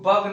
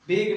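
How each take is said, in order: First: The vowel sounds like the one in 'bug'. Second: The vowel sounds like the one in 'beg'. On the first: "इसको बग नहीं पढ़ेंगे" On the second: "बेग नहीं पढ़ेंगे"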